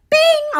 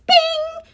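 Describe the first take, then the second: First: High bing dropping at the end; high falling bing; notification ding. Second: High sung-out bing like an alert chime; high playful bing; notification ding. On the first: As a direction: chime it out and let it fall. Mimicking a phone notification again. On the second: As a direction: chirp it like a phone notification. Mimicking a phone notification. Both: Pretend.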